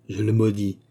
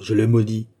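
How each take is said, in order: First: Contained curse on MAUDIS, falling; restrained first curse, MAUDIS falling; grave curse. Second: Emphatic curse with MAUDIS driven hard; intensified, weighty JE LE MAUDIS; forceful curse. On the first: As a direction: pronounce MAUDIS gravely, without raising the voice. Duke's first utterance of curse. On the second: Duke repeats curse more forcefully. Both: A narrator's reading.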